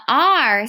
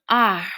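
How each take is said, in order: First: Said in the usual way. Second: Growled pirate R; pirate arr. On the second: Shown as a demonstration. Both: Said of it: "kinda like a pirate sound".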